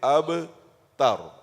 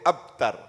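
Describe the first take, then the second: First: The b is released with a short echoing bounce. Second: The b is closed without an echoing bounce. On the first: The speaker calls it right. "There's a قلقلة" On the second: The speaker calls it wrong. "So don't say أبتر"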